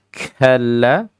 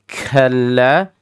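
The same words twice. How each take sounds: Both takes have the same delivery.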